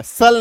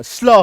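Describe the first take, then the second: First: "सल" with a vowel between s and l; letters read as "sal". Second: "स्ल" with s running straight into l; half-s blend. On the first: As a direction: say "सल" as a full s plus l. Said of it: "सल नहीं होगा, स्ल हो जाएगा". ("सल", पूरे स के साथ गलत उच्चारण) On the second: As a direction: blend "स्ल" with no vowel after the s. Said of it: "इसका उच्चारण आधा स और ल". ("स्ल", आधा स और ल मिलाकर) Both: Shown as a demonstration.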